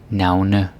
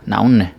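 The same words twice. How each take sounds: First: Every syllable of the word is pronounced clearly. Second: The ending is shortened and slurred together. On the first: This is careful teaching speech. "that's just me because I'm a teacher" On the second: This is how people really talk. "regular people, myself included, if I'm with other Danes, I'll just be like"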